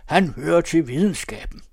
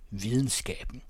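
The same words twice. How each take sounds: First: Loud, raised proclamation; high, forceful public declaration. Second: Said in the usual way. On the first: A narrator's reading. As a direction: proclaim it over the uproar. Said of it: "siger han meget højt". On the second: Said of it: "ved denne lyd".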